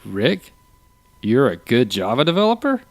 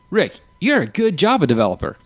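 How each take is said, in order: First: "Rick?" then "you're a good Java developer?" climbing to the end; disbelieving rise all through "Java developer"; incredulous question. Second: "Rick, you're a good Java developer" pitched higher, falling at the end; firm, lifted "you're a GOOD Java developer"; emphatic statement. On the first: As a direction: swing "developer" steeply upward as a question. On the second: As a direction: punch "you're" and "good" high, land "developer" downward. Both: Shown as a demonstration. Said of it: "Or if I say".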